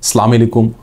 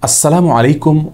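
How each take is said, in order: First: The greeting is clipped, with syllables slurred or dropped. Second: The greeting is said in full, every syllable clear. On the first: The speaker calls it wrong. "বিকৃত উচ্চারণে" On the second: The speaker calls it right. "এভাবে বিশুদ্ধ উচ্চারণে"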